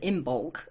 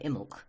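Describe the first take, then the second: First: Every written sound of the word is pronounced. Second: Several written sounds are dropped from the word. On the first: People may not recognise the word said this way. "instead of Imbolc" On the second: This is the usual way people say it. "we don't say most of it, we just say Imbolc"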